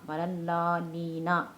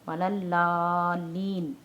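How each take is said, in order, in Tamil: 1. இந்த சொல் ன் க்குப் பின் ஒரு 'a' உயிர் ஒலியில் முடிகிறது. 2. இந்த சொல் ன் ஒலியில் உறுதியாக நின்று முடிகிறது. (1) "நூன் ஜபர் நா" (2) "ஒரு அழுத்தம் கொடுத்து ஒரு புள்ளி கொடுத்து நம்ம நிறுத்தணும்"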